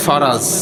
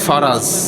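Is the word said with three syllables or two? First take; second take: two; two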